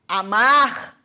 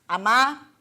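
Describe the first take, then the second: First: The final r is pronounced. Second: The final r is left off. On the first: "Em vez de" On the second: "Nós tendemos a omitir o R também quando usamos verbos no infinitivo"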